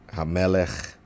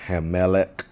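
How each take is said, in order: First: Hamelech said hah-meh-lekh, ending in a throaty ch; corrected Hamelech. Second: Hamelech said heh-meh-lek, ending on a hard k; first try at Hamelech. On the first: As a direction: fix Hamelech with an open a and a guttural ch. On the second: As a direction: read Hamelech with a plain English k at the end. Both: Shown as a demonstration.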